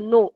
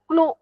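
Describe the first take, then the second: First: The word begins with an n sound. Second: The word begins with a k sound. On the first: The speaker calls it right. "Here के is silent. नो असाच उच्चार याचा आहे" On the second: The speaker calls it wrong. "याला क्नो म्हणायचं नाही"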